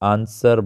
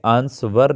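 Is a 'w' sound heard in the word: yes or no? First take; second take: no; yes. First: No 'w' sound is heard after the 's'. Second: A 'w' sound is heard after the 's'. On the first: The speaker calls it right. "आंसर बोलना है" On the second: The speaker calls it wrong. "इसे आंसवर नहीं बोलना है"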